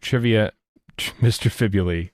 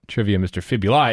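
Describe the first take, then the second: First: Fibuli is said with its usual pronunciation. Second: Fibuli is said with an altered pronunciation. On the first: The speaker calls it right. "It's the return of" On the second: The speaker calls it wrong. "as Google wants to call it, ... It's wrong"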